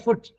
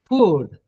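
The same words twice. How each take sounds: First: It sounds like the word foot. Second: It has a long, stressed oo vowel. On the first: The speaker calls it wrong. "Don't say food. Then it will become F O O T" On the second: The speaker calls it right. "You should always uh, uh, say, stress it"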